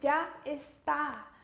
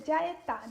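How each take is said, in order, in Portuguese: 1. São duas palavras claras, com o s. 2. Junta-se numa palavra só, sem o s.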